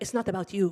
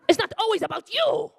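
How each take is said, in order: First: Said in the usual way. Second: High, loud mock screech; hammed-up shrill scolding; mom snapping. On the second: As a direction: yell at a husband stealing attention. Mom's scolding escalates.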